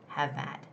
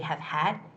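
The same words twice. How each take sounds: First: The h sound in 'had' is dropped. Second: The h sound in 'had' is clearly pronounced. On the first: The speaker calls it right. "Try to get rid of that H sound" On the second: The speaker calls it wrong. "Don't say have had"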